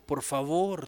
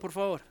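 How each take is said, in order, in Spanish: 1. Se dice como un ruego insistente y suplicante. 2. Se dice como un pedido relajado y amistoso. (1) "cuando ya llega al extremo y no hace caso, yo te ruego" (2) "Usted comienza haciendo un pedido, en buena onda"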